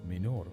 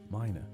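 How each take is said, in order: First: It is said with a Latin-style pronunciation. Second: It is said with an anglicized English pronunciation. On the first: "the assumed Latin pronunciation" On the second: "the anglicized pronunciation"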